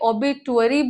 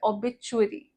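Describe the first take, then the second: First: The middle consonant is a plain t sound. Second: The middle consonant is a ch sound. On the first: The speaker calls it wrong. "बहुत लोग इसे ऑबिटुअरी बोलेंगे" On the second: The speaker calls it right. "च का sound आ रहा है"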